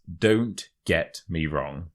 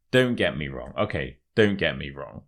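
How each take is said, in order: First: Word-by-word "Don't get me wrong"; measured demonstration, "Don't" set apart; slow model phrase. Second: Said in the usual way. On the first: Shown as a demonstration. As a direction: present the phrase slowly for learners. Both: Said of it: "the third expression is".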